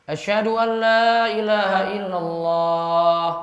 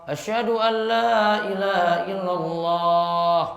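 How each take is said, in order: Both takes have the same delivery.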